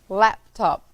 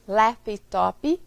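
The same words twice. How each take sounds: First: The word ends cleanly on its final consonant. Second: An extra vowel sound is added at the end. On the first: The speaker calls it right. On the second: The speaker calls it wrong.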